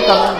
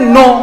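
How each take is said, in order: First: The word begins with a pronounced k sound. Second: The word begins directly with an n sound. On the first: The speaker calls it wrong. "कनो नहीं ना" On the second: The speaker calls it right. "इसको पढ़ते हैं नो"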